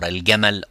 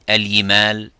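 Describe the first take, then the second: First: The consonant is a full stop like 'j'. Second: The consonant is a gliding 'y' sound. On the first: The speaker calls it right. "you say uh, الجمعة or الجمل or الجبال" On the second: The speaker calls it wrong. "It is not also ya"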